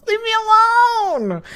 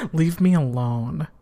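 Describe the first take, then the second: First: High squealed plea through laughter; helpless high-pitched whine; laughing protest. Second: Said in the usual way. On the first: Real, not acted. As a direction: wail it out mid-giggle, voice shooting up. Protesting while helplessly laughing at teasing.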